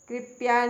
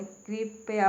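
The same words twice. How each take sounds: First: कृपया squeezed to two syllables, krip-ya; wrong pronunciation. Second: कृपया slowly in three syllables, kri-pa-ya; correct pronunciation. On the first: Teacher showing the mistake, कृपया run together as krip-ya. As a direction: say कृपया as krip-ya, no vowel after p. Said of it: "कृपया नहीं होता". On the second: Teacher correcting learners, कृपया opened out as kri-pa-ya. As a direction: give कृपया a full pa in the middle. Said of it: "कृपया होता है". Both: Shown as a demonstration.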